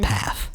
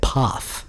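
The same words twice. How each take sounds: First: Path is said with an American vowel. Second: Path is said with a non-American vowel. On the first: "not path" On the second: "Not the U S of A, because they said path"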